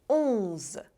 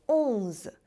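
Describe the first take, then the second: Both takes have the same delivery.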